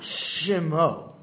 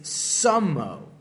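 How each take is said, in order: First: The word begins with an sh sound. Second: The word begins with an s sound. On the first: The speaker calls it wrong. "It's not shemo" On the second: The speaker calls it right. "It's sumo"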